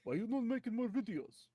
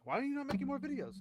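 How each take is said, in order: First: It is said in a Russian accent. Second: It is said in the speaker's plain accent.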